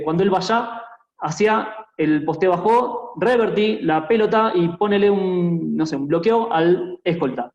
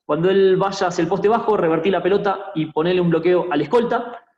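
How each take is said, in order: First: Slowly, shifting stress to wrong syllables, as in "bajo" stressed on its last; deliberately misaccent each word, like "bajo" with final stress and "pelota" with first-syllable stress; misplaced word stress. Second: Said in the usual way. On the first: Shown as a demonstration. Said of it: "cuando pongo los acentos donde no van". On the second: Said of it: "No es lo mismo que yo diga".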